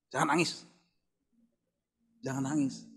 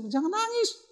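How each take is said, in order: First: Quiet imitation of a wife's reproof; hushed admonition. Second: Imitated wife, squeaked very high; softer but far higher mimicked reproof; high-pitched mock scolding. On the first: Wife hushing husband during prayer, quiet retold admonition. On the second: Wife telling crying husband to stop, high mock scolding.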